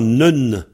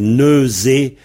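First: The z sound is dropped, leaving a short syllable. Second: The word has a z sound in the middle. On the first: "le Z s'en va et on entend nun" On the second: "c'est neusé, N-E-U-Z-E"

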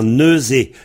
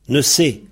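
First: The middle consonant is a voiced z sound. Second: The middle consonant is a voiceless s sound. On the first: "dans ce neusé, on trouve zé" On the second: "il y en a qui disent ne se"

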